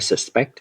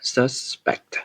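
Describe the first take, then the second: First: The stress is on the second syllable. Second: The stress is on the first syllable. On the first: It is the verb meaning to suspect someone. The speaker calls it wrong. "không phải suspect" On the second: It is the noun meaning a person suspected of a crime. The speaker calls it right. "đổi cái stress uh, của nghi phạm sang đầu tiên"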